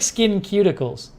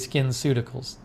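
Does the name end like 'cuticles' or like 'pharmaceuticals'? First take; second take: cuticles; pharmaceuticals. First: The name is said as 'skin cuticles'. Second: The name ends like 'pharmaceuticals'. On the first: "I like skin cuticles" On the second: "It's probably skinceuticals"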